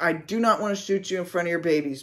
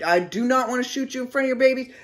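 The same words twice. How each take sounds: First: Quick plea in a near-normal voice; retold begging. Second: Fast, high, urgent plea; retold screaming. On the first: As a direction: implore her rapidly without shouting. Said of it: "begging her". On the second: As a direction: rush it out as a raised-voice warning. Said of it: "I'm screaming this".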